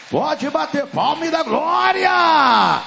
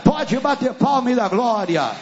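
First: High, full shout rising into a long final GLÓRIA; shouted praise call. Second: Preacher's raised, ringing call for praise; rousing call. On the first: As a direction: whip the congregation up, stretching out glória. Repeats the call more forcefully. (grito exaltado de louvor, alongando "glória") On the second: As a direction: call the congregation to clap and give glory. First call for applause. (chamado animado ao louvor) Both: Real, not acted.

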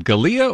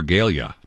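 First: "Galia" said guh-LEE-uh, stress in the middle; first name variant. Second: "Galia" said GAYL-yuh, stress up front; second name variant. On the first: Host checks guest's name, offering "Galia" as guh-LEE-uh. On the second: Host checks guest's name, offering "Galia" as GAYL-yuh. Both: Shown as a demonstration. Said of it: "is it Galia or Galia?".

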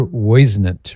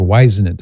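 First: Whisenant with first syllable like "woyz"; alternative pronunciation. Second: Whisenant with first syllable like "wise"; alternative pronunciation. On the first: Host unsure of an author's name, Whisenant said WOY-zuh-nunt. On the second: Host offering a second guess, Whisenant said WHY-zuh-nunt. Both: Shown as a demonstration. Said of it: "I don't know how he pronounced his name".

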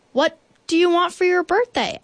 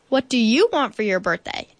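First: High, eager bear voice; bear's question. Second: Said in the usual way. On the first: A narrator's reading. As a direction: ask it high and keen as Bear. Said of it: "asked Bear". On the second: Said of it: "asked the moon".

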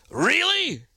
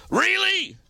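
First: High, drawn-out disbelieving really; sarcastic sky-high really; incredulous really. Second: Even higher, drawn-out really; mock-exasperated really; incredulous really. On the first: Pretend. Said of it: "I hope they heard it in that voice". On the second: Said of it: "in that voice".

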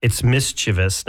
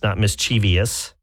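First: "mischievous" in three syllables, MIS-chi-vus; correct pronunciation. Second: "mischievous" in four syllables, mis-CHEE-vee-us; wrong pronunciation. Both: Shown as a demonstration.

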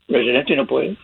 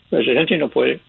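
Both takes have the same delivery.

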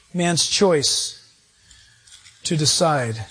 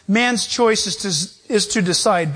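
First: "Man's choice" and "to decide" set apart by pauses, low and deliberate; slow emphatic repeat. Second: Said in the usual way. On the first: Shown as a demonstration. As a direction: lay each phrase down slowly for emphasis.

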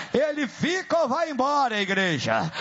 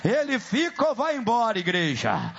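No difference in how they are said.

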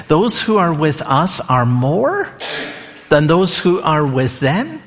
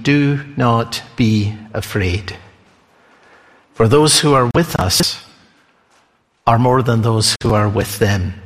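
First: Said in the usual way. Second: Calm reassurance. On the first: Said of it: "You hear these words from Elisha". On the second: Acted. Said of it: "And Elisha said".

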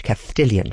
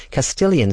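First: "Castilian" with a lisped th where the s is, kas-THEE-lyan. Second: Said in the usual way. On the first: Shown as a demonstration. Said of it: "but he spoke Castilian Spanish".

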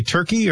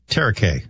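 First: Said in the usual way. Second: "Tarakai" said as TAIR-uh-kay; "Tarakai" with a kay ending; alternative pronunciation. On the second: Shown as a demonstration. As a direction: stretch Turkey into three syllables, "Tarakai". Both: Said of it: "do you say Turkey or Tarakai".

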